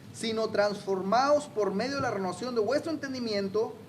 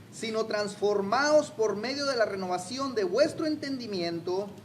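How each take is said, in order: No difference in how they are said.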